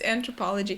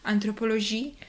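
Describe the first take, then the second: First: It is said with a plain English pronunciation. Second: It is said with a French-sounding pronunciation. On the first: The speaker calls it right. "but it's anthropology" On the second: The speaker calls it wrong. "this is French sounding, so um, I've heard people say anthropologie"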